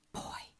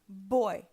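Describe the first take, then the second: First: It is whispered without voice. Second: It is spoken aloud with full voice. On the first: The first sound turns into a P. The speaker calls it wrong. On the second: The first sound stays a B. The speaker calls it right.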